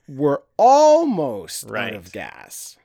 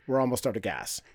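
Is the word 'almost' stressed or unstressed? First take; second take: stressed; unstressed. First: The word 'almost' carries strong emphasis. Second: The word 'almost' gets no special emphasis. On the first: There is still some gas left, which is good news. The speaker calls it right. "if you change your inflection in that one to make it sound like" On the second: Running low on gas is bad news. The speaker calls it wrong. "he delivered them both the same"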